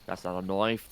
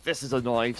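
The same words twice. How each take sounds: First: Put-on low, softer parody Australian accent; mock Australian. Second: Mock Aussie punchline, lifted above setup; mock Australian. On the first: Caster riffing on a film line, low mock Australian accent. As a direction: lower mock Aussie setup line, rising end. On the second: Caster turning film line into play-by-play, mock Australian accent. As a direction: parody Australian with a broad vowel on "knife". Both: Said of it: "be Aussie for a round".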